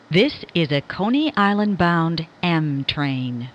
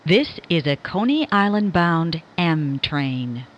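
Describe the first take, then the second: No difference in how they are said.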